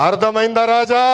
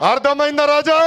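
First: Taunting question. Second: Higher-pitched call, "Raja" held out; rousing taunt. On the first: Leader mocking rivals over the red book, taunting question. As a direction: tease them with a measured "Raja". Taunting catchphrase, first take. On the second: Leader repeating his taunt for the rally crowd, rousing call. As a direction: throw "Raja" up high to the crowd. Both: Real, not acted.

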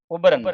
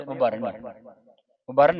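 First: Loud, clear ਉਬਰਨ as "ub-ran"; ਉਬਰਨ with a short "ub" and clear "ran"; correct pronunciation. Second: ਉਬਰਨ as "u-barn"; the mistaken ਉਬਰਨ, weight on "bar"; common misreading. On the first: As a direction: split ਉਬਰਨ after the b. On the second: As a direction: run the end of ਉਬਰਨ together as "barn". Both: Shown as a demonstration. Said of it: "ਉਬਰਨ ਨਹੀਂ ਪੜ੍ਹਨਾ".

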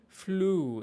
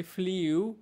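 First: ফ্লু said plain flu with no y glide, slowly; correct pronunciation. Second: ফ্লিউ said the wrong way with a glide, fl-yoo; common wrong pronunciation. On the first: Teacher correcting students' mistake, slow correct pronunciation. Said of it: "but that should be ফ্লু". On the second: Teacher showing students the common mistake, wrong pronunciation. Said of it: "আমরা বলি ফ্লিউ". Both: Shown as a demonstration.

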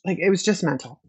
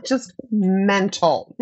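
First: Said in the usual way. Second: Laughing slowly through it; amused, drawn-out repeat. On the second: Real, not acted.

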